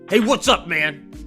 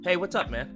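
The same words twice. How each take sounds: First: The greeting sounds angry and hostile. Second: The greeting sounds calm and friendly.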